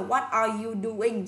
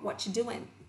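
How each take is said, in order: First: Every word is said fully and clearly. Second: The words are reduced and run together. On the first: "Người ta không nói rõ là" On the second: "Người ta sẽ nói là"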